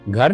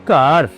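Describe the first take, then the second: First: It starts with a breathy 'gh' sound. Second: It starts with a plain 'k' sound. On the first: This is the Hindi form. "क ख ग घ चौथे अक्षर से शुरू हो रहा है।" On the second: This is the Punjabi form. "तो क्या बोलेंगे पंजाबी में घर को?"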